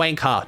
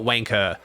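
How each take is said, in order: First: "wanker" ending in an open ah; non-rhotic pronunciation. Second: "wanker" with a hard r ending. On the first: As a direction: say "wanker" as WANK-uh, r dropped. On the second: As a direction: say "wanker" as WANK-urr, r pronounced. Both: Shown as a demonstration. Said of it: "go hard on the E R on that one".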